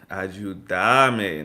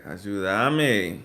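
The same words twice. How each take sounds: Both takes have the same delivery.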